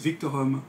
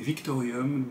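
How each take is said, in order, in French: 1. Il se termine par '-orum', sans son 'ee'. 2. Il se termine par '-orium', avec un son 'ee' ajouté.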